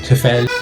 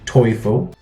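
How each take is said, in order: First: The name is said with an English-style vowel. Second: The name is said with a German vowel. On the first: The speaker calls it wrong. "a lot of people don't know how to say it right" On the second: The speaker calls it right. "it's pronounced Teufel in German"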